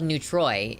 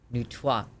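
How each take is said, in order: First: The word ends in an English 'oy' sound. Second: The word ends in a French 'wah' sound. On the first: The speaker calls it wrong. "it's not spelled Neutroy ... an Americanization being Neutroy, but that's not how you say it" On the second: The speaker calls it right. "because it is French. Like, R O I S is roi"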